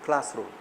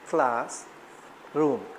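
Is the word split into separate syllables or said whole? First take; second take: whole; split. First: The two syllables are joined without a pause. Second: The two syllables are said apart with a pause.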